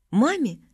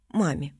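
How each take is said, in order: First: "Маме" lifted high as a tentative question; questioning suggestion. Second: "Маме" dropped low as a final answer; settled decision. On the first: Family council wonders who should talk to her, questioning. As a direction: offer "Маме" up for approval, pitch raised. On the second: Family council settles who talks to her, quiet and decided. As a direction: confirm "Маме" quietly, with a falling close. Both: Acted.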